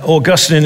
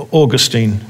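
First: Augustine as aw-GUS-tin, stress on GUS; stress on second syllable. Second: Put-on Augustine as AW-gus-teen, stress on AW; stress on first syllable. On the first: Preacher explaining a name to the congregation, Augustine stressed on GUS. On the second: Preacher giving the other form of the name, Augustine as AW-gus-teen. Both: Shown as a demonstration. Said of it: "emphasis on the syllable".

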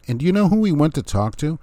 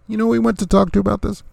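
First: Said in the usual way. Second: Much higher, fast and insistent; building outrage at the news; incredulous emphatic repeat. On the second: Real, not acted. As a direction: push the question up in disbelief.

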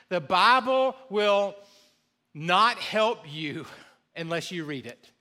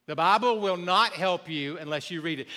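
First: The Bible will, pause, not help you, pause, unless you read it, slow; slow, emphatic phrasing. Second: Said in the usual way. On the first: Shown as a demonstration. Pastor driving home the point, slow deliberate pauses. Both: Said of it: "But let me say this".

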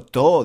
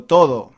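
First: To said short with the ending of todo dropped, Granada style; clipped Granada to. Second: Todo said in full with every syllable clear; careful todo. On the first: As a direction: cut todo down to to. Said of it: "no digo to". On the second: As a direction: say todo fully, both syllables. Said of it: "digo todo". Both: Shown as a demonstration.

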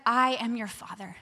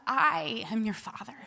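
First: Lower, measured assurance; fatherly assurance. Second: Long, weighted "I", then quieter; stress on I. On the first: God reassuring the anxious speaker, fatherly assurance. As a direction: state it calmly and firmly, stretching "I". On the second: God setting himself against departing parents, stress on I. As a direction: lean on "I" and draw it out. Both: Retold or imitated.

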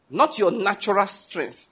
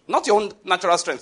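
First: "Not your natural strength" spaced out slowly; slow, weighted "natural strength"; deliberate emphasis. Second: Said in the usual way. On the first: Real, not acted. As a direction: stretch out "natural" to drive it home. Slow repeat of the warning.

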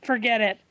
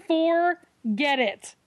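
First: Said in the usual way. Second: Higher, very slow, drawn-out forget it; slow emphatic dismissal. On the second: Real, not acted. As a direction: stretch it out, fed up.

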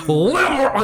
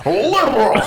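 First: "Liberal" with a fat, two-syllable B, pitched high; mock Patton Oswalt B. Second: "Liberal" shaken out through the jowls, high and laughing, no real B; jowly Liberal. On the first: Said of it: "the old Patton Oswalt bit about B word". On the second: Retold or imitated. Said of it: "he's using his jowls to pronounce liberal".

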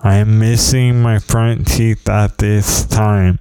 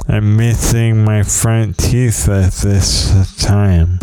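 First: "missing" whistled through missing front teeth; careful take with whistling s sounds. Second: "this" whistled through missing front teeth; hissing s through a gap in the teeth; whistling s sounds. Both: Shown as a demonstration. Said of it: "I'm whistling".

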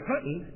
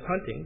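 First: "hunting" said as "huntn", no final g; dropped g. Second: Said in the usual way. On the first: Retold or imitated. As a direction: quote the Southern "hunting" with a swallowed ending. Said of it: "hunting instead of hunting". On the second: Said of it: "instead of hunting".

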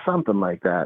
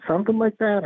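First: Noncommittal, slightly low reply; evasive answer. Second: High-pitched, querying echo of the answer; questioning echo. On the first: Inmate dodging the counselor's question, noncommittal. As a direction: toss it off as a vague admission. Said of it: "And he was like". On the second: Counselor challenging the inmate's vague answer, questioning echo. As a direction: throw it back as a pointed question, pitch jumping up. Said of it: "And I said". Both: Retold or imitated.

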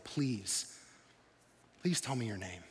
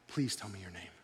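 First: Soft, low pleading please; a hushed, humble plea. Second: Soft, low, trembling plea; quiet, low, trembling please. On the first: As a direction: beg quietly for the name. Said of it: "It's almost like he's pleading". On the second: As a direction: ask in awed, shaken reverence. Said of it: "You can almost hear the tremble in his voice". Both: Retold or imitated.

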